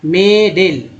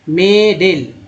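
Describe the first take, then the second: First: The second vowel is read as a full 'e'. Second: The same.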